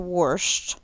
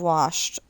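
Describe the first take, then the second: First: The word has a Southern, country pronunciation. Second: The word has a plain, standard pronunciation. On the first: This is how an older relative said it. "like Grandma used to say washed" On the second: This is the usual way to say it. "instead of washed"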